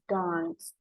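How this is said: It is said with a British accent. "Kalau bahasa Inggris British"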